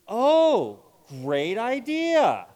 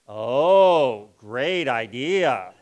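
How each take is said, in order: First: It is said in a sincere, enthusiastic tone. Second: It is said in a sarcastic, mocking tone. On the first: The speaker genuinely likes the plan. "You can say the same thing seriously" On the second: The speaker thinks the plan is bad. "So we use something called sarcasm"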